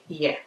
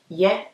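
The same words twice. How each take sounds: First: The word is said softly and inwardly. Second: The word is said louder and projected. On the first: It means to be. "You pronounce it inwards. It's not really projected that loud" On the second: It means to do. "when you project it um louder, it means to do"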